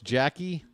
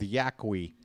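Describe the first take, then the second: First: The name begins with a J sound. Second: The name begins with a Y sound. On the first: "I know a Y can sound like a J sometimes" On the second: "we're going with Yaqui"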